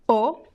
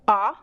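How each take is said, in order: First: The vowel is closed, with rounded lips. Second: The vowel is open, with the mouth wide. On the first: "It could be closed" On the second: "aberta, which means an open sound"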